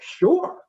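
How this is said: It sounds excited and eager. The person is eager to go. "I'm excited"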